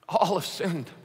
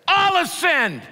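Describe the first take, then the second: First: The words are said softly in a sorrowful tone. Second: The words are shouted in an angry tone. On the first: The speaker shares in the grief of everyone's failure. The speaker calls it right. "I think he'd say it with a broken heart" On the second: The listener feels yelled at. The speaker calls it wrong. "I could shout it to you in anger"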